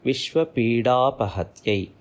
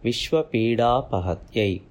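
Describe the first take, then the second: The two takes are said the same way.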